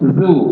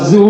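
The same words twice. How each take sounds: First: The syllable starts with a soft 'dh' sound. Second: The syllable starts with a buzzing 'z' sound. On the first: The speaker calls it right. "Jadi lidah pas di ujung gigi" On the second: The speaker calls it wrong. "Kalau zu ... itu salah"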